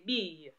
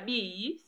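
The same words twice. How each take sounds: First: The vowel is pressed and the pitch falls. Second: The vowel is said without extra weight or fall. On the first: The speaker calls it right. "tu appuies un peu sur le i de bille et tu descends" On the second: The speaker calls it wrong. "On ne dit pas bille"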